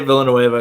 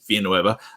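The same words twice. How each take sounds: First: The double L is said as an L sound. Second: The double L is said as a Y sound. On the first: It is the pronunciation the audience expects. "I'll say Villanueva" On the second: It is the Spanish pronunciation. "people were kind of getting triggered by me saying Villanueva"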